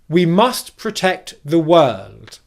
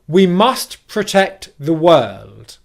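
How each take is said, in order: No difference in how they are said.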